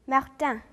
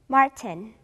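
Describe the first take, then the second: First: The name is pronounced the French way. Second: The name is pronounced the English way. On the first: "프랑스어는" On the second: "영어로"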